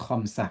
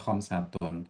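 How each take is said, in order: First: The word stops short without its final ending. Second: The word ends with its full final vowel ending. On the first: This is the form used in everyday speech. "diperbolehkan kita mematikan ujungnya" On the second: This is the form used when studying. "kita ucapkan sampai harokat ujungnya"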